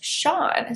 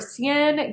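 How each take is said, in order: First: The name is given an Irish pronunciation. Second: The name is given an anglicized pronunciation. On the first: The speaker calls it right. "it's actually an Irish name pronounced Sean" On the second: The speaker calls it wrong. "I believe I pronounced that Sian"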